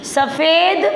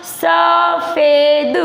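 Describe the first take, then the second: First: Said in the usual way. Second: सफ़ेद chanted very slowly, sa-fe-d; syllable-by-syllable reading. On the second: Shown as a demonstration. Teacher reads along with pupils, सफ़ेद sounded out slowly. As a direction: draw out each syllable of सफ़ेद. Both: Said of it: "आगे बेटा आपको पढ़ना".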